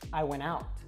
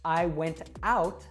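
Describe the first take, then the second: First: The T in went is dropped. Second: The T in went is clearly pronounced. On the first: "I would actually say" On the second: "if I say"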